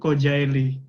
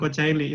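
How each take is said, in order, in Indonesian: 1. Konsonan di tengah adalah bunyi 'j'. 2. Konsonan di tengah adalah bunyi 'ch'. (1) "itu Kojaeli yang betul" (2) "sebenarnya bukan Kocaeli"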